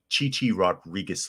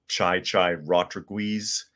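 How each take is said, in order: First: The first name is said like 'chee chee'. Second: The first name is said like 'chai chai'. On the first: The speaker calls it right. "it's Chichi Rodriguez" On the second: The speaker calls it wrong. "how he used to screw up pronunciations"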